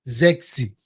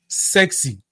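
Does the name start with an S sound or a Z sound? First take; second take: Z sound; S sound. First: The name begins with a Z sound. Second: The name begins with an S sound. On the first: The speaker calls it right. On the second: The speaker calls it wrong. "It's not sexy"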